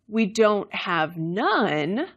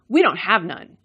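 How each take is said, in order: First: Contrastive intonation makes the negatives cancel out. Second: Neutral intonation keeps the plain negative meaning.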